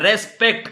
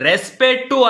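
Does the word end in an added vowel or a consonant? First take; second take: consonant; added vowel. First: The word ends on a plain 't' consonant. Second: The word ends with an extra 'u' vowel. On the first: The speaker calls it right. "Correct ಆಗಿ ಕಲ್ತ್ಕೊಳ್ಳ" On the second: The speaker calls it wrong. "ರೆಸ್ಪೆಕ್ಟು ಅಲ್ಲ"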